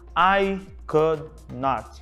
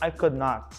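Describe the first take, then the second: First: Each word is said separately and distinctly. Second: The words run together in one linked flow. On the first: The speaker calls it wrong. "ao invés de lerem assim" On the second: The speaker calls it right. "Tente juntar tudo para soar um pouco mais natural"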